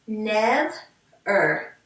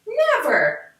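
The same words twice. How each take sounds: First: "Nev-er" split into two syllables, a small gap between them. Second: "Never" blended into one smooth word, said higher. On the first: Teacher splitting syllables for the class, slow. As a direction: say "Nev-er" as two separate beats. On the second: Teacher blending syllables back together, smoothly. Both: Shown as a demonstration. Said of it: "let's put it together".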